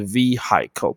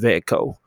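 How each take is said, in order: First: The h sound in the middle is pronounced. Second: The h sound in the middle is silent. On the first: The speaker calls it wrong. "H 是不发音的，所以那个H V E H 不发音，不要念成vehi 或者vehicle，不对" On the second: The speaker calls it right. "是vehicle"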